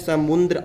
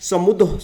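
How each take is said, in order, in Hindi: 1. d से पहले एक अतिरिक्त n ध्वनि आती है। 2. d से पहले कोई n ध्वनि नहीं आती। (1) "आप यहाँ पर आधा न लगाते हैं, तो ये शब्द ... बिल्कुल अशुद्ध शब्द है" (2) "तो इसका शुद्ध क्या होगा?"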